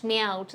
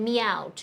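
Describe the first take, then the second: No difference in how they are said.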